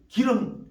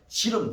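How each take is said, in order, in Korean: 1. 이 단어는 딱딱한 g 소리로 시작해요. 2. 이 단어는 j 소리로 시작해요. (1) "기름이라는 말도 발음하기 어려워서" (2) "우리 경상도에서는 지름"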